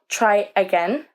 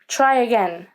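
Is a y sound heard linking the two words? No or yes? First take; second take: no; yes. First: The two words are separate without a y sound. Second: A y sound joins the two words smoothly. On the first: The speaker calls it wrong. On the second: The speaker calls it right. "the linking sound is Y"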